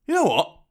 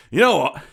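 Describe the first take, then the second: First: You know what, pitched much higher in mock astonishment; taunting, high mock surprise. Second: Said in the usual way. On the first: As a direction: feign sudden amazement. Villain repeats, mock incredulous.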